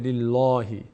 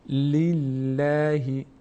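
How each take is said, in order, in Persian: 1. صدای L سنگین و پر است. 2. صدای L سبک و نازک است. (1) "نمیشه لله، لله نمیگیم" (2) "لفظ جلاله پر خونده نمیشه هر وقت که کسره باشه قبلش"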